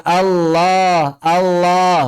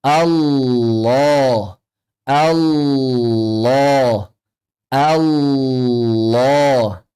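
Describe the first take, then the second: First: "Allah" with a thin l and open front a, higher; wrong thinned lam. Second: "Allah" very slow, long dark l, rounded oh ending; correct thick Allah. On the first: Teacher showing what to avoid, thin "Allah". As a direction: say "Allah" lightly, al-laah with no rounding. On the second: Teacher modelling for students, slow thick "Allah". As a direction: hold a heavy l in "Allah", then open to a long oh. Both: Shown as a demonstration. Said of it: "jangan ditipiskan".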